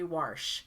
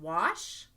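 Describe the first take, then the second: First: The word is said with an added R sound. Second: The word is said without an R sound. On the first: "we add R's to things that shouldn't" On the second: "Instead of wash"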